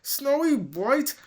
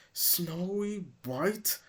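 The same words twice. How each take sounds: First: High, loud outraged cry; outraged shriek. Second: Slow hissed question; hissing. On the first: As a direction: explode on the name. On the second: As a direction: hiss the name in disbelief. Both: Acted. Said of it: "Kingsley hissed".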